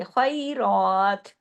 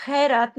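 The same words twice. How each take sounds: First: खैरात very slow, a clear a-i glide and long rounded raa; correct heavy recitation. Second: खैरात quick, with a flattened e and light r; casual, unstretched खैरात; wrong everyday pronunciation. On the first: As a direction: draw out खैरात with thick kh and r. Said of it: "इसको खै नहीं पढ़ेंगे". (खैरात मोटा, या लीन के साथ खींचकर) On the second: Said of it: "खैरात नहीं पढ़ेंगे". (खैरात आम बोलचाल की तरह, गलत) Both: Shown as a demonstration.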